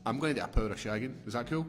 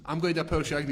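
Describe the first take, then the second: First: Quick, offhand husband voice asking permission; mock Will Smith. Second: Higher and louder, tossing it right back; mock wife. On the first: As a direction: rattle it off like a casual request. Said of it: "That's just like Will Smith's like". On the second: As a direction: fire the same line back at him, higher. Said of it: "And she's like".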